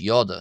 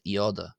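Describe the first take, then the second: First: The word begins with a 'y' sound. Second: The word begins with an 'ee' vowel. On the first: The speaker calls it right. "it's pronounced as yoda" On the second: The speaker calls it wrong. "not ioda"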